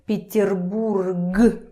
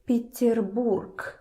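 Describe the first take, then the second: First: The word ends with a voiced g sound. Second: The word ends with a voiceless k sound. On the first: The speaker calls it wrong. "Takes too much effort from your throat. Peterburg. No" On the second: The speaker calls it right. "So G, when you say it, becomes K"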